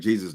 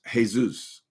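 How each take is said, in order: First: The name is said with English pronunciation. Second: The name is said with Spanish pronunciation. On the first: It refers to the religious figure. "like Jesus the Christ" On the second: It is the personal name used by Spanish speakers. "a lot of Spanish people use that name. I think I heard somewhere that it's pronounced Jesus"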